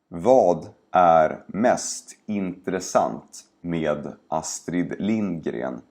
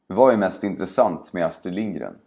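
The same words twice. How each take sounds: First: The sentence is spoken slowly and carefully. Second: The sentence is spoken quickly and naturally. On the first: "first say each sentence slowly" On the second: "and then faster, like a native speaker would"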